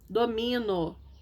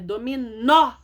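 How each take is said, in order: First: The stress falls before the last syllable. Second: The stress falls on the last syllable. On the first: The speaker calls it wrong. "Sem acento fica domino" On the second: The speaker calls it right. "Não é domino, é dominó"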